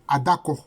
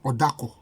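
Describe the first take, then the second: First: The name starts with an a vowel. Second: The name starts with an o vowel. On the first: "Le A ou le O, ça, ce n'est que la voyelle" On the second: "Le A ou le O, ça, ce n'est que la voyelle"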